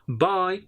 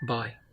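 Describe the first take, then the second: First: The word is said in an enthusiastic voice. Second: The word is said in a sad voice. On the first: They will meet again soon. "So a lot of enthusiasm I'm having in my voice" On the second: The speaker is sorry to part. "That means I'm very sad to say goodbye to you"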